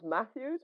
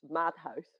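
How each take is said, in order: First: The name is said with English sounds. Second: The name is said with Dutch sounds. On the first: This is how English speakers usually say it. The speaker calls it wrong. "in English, usually it becomes Matthews" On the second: This is the name's own pronunciation. The speaker calls it right. "it's Madhouse"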